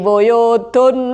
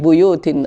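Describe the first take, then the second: First: The word ends with an -un sound. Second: The word ends with an -in sound. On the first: The noun is read in the nominative case. The speaker calls it wrong. "dia baca apa? ... boleh dibaca rafa" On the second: The noun is in the genitive case after the preposition. The speaker calls it right. "bukan fi buyutin"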